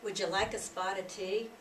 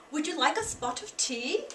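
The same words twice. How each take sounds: First: Said in the usual way. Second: A light British accent on "Would you like a spot of tea?"; a lightly voiced British lady offering tea; mild British accent, rising at the end. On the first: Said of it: "Americans would say". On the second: Shown as a demonstration. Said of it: "the Great Britain way of saying that sentence".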